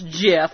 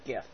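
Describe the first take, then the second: First: It begins with a soft J sound. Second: It begins with a hard G sound. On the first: The speaker calls it right. "it's actually pronounced GIF, and he's right" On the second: The speaker calls it wrong. "technically it's wrong, but I'm sticking with GIF"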